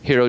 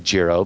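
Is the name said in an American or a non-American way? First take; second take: non-American; American. First: The name is said with a non-American pronunciation. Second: The name is said with an American pronunciation. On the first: This is believed to be the real pronunciation. The speaker calls it right. "but I think it's pronounced Hero" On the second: This is how Americans would usually say it. The speaker calls it wrong. "here in America we'd say Jiro"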